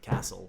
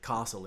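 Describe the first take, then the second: First: It is said in a Melbourne accent. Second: It is said in an Adelaide accent. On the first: "like they do in Melbourne" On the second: "Adelaide accent where we say castle"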